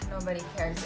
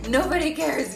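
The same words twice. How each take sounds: First: It is said with a dismayed groan. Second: It is said happily, with excitement.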